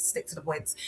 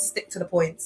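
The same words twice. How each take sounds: First: "stick to the points" dropped much softer, almost to herself; softer repeat. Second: Said in the usual way. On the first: Real, not acted. To her live viewers, reminding herself, murmured much softer. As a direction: say "stick to the points" again under your breath. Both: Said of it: "if I'm speaking like this".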